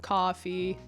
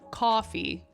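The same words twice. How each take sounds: First: The pitch stays flat across the word. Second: The pitch changes across the word.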